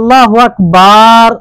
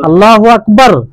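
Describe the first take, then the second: First: A vowel is drawn out too long. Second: No vowel is drawn out. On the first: The speaker calls it wrong. "ভুল হয়ে যাবে" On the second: The speaker calls it right. "কোনো টান নেই"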